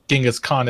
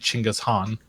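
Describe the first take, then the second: First: The name begins with a J sound. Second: The name begins with a Ch sound. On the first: This is the common version of the name. The speaker calls it wrong. "what people say" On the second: This is the real form of the name. The speaker calls it right. "it's actually"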